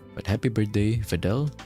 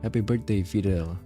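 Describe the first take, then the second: First: It is said in an American accent. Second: It is said in the speaker's usual accent.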